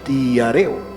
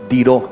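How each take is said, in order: First: The middle vowels are said as separate syllables. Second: The middle vowels are joined into one diphthong. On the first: The speaker calls it wrong. "la pastora lo leyó como diareo" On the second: The speaker calls it right. "Ahí hay un diptongo. Eso se lee es diró"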